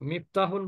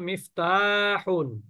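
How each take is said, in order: First: The vowel in the second syllable is short. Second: The vowel in the second syllable is long. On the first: The speaker calls it wrong. "মিফতাহুন বলবেন না" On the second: The speaker calls it right. "এখানে মাদ আছে"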